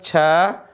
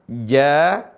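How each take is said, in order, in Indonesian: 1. Konsonannya adalah bunyi seperti ch, berdesis. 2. Konsonannya adalah j bersuara, tidak berdesis. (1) "Bukan ca ... Itu huruf yang berdesis" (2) "Dia tidak berdesis. Cara bacanya ja"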